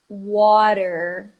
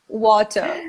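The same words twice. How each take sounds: First: The t sounds like a quick r. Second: The t is left out entirely. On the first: "Ele junta com uma vogalzinha e vira um R" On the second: "eles não vão nem falar water"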